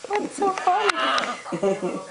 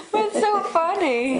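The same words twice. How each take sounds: First: Said in the usual way. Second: High giggly question through a laugh; words bubbling with laughter; laughing along. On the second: Real, not acted.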